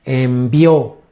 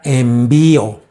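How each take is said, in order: First: Envió stressed on its last syllable, en-vi-Ó; stress on final O. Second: Envío with the stress on its middle syllable, en-VÍ-o. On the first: Preacher correcting the word for the church, envió stressed on the final ó. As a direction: land on the ó of envió. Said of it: "Envió con acento en la O". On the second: Preacher showing the church the wrong reading, envío stressed on the í. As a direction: lean on the í in envío. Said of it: "No es envío". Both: Shown as a demonstration.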